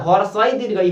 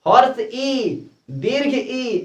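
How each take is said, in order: First: हर्षई run together as one word; wrong pronunciation. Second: हर्ष ई with the two words kept apart; correct pronunciation. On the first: Retold or imitated. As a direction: imitate the boy saying हर्षई and दीर्घई as single words. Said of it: "लड़का कहता है". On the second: Shown as a demonstration. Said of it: "ऐसा ना होना चाहिए".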